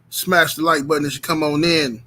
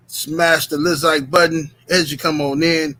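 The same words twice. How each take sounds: First: Said in the usual way. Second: LIKE stretched into "Lizike" with a z syllable; slang infix. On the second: Real, not acted. Repeats it with slang syllable inserted.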